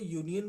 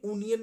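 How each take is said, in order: First: The word begins with a 'yoo' sound. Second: The word begins with a plain 'uh' vowel. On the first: The speaker calls it right. "यूनियन बोला जाता है" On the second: The speaker calls it wrong. "ये भी यूनियन नहीं बोला जाता"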